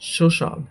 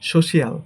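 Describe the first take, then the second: First: The ending is said as one syllable, shal. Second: The ending is said as two syllables, shee-al. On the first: The speaker calls it right. "But এটা হবে" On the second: The speaker calls it wrong. "এটাকে বলি আমরা"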